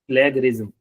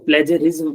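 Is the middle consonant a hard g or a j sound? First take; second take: hard g; j sound. First: The middle consonant is a hard g sound. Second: The middle consonant is a j sound. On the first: The speaker calls it wrong. "तो ये वाला उच्चारण गलत है इसका" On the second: The speaker calls it right. "बोला जाना इसको बिल्कुल सही है"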